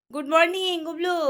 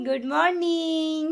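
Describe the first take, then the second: First: High, lilting hello. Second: Very slow, high "good morning"; drawn-out modelling. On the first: Real, not acted. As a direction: greet a sleepy little one in a high voice. Mother greets child waking up. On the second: Shown as a demonstration. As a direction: stretch "morning" out long for a child to copy. Models the full greeting for child.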